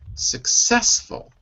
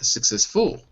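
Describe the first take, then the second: First: The stress is on the second syllable. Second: The stress is on the first syllable. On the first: The speaker calls it right. "The stress is on the success, second syllable" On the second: The speaker calls it wrong. "Not successful"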